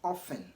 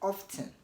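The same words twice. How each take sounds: First: The T sound is left out completely. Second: The T sound is pronounced in the middle. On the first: "you want to say often" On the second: "pronounce the T in often as often"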